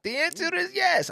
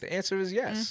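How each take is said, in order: First: It is said in a put-on character voice. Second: It is said in a natural speaking voice.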